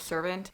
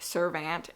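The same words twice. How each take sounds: First: The last syllable is reduced and weak. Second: The last syllable is a clear 'ant'. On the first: The speaker calls it right. "instead of servant" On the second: The speaker calls it wrong. "I keep reading it servant"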